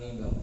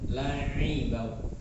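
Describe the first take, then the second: First: The middle consonant is a nasal ng sound. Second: The middle consonant is a throaty ain sound. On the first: The speaker calls it wrong. "Jangan langibau" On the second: The speaker calls it right. "Pakai ain"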